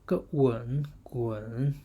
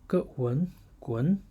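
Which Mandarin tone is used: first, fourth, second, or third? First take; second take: third; second. First: The syllable is said with the third tone. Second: The syllable is said with the second tone. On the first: "third tone" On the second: "second tone"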